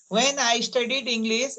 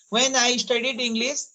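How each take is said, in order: Both takes have the same delivery.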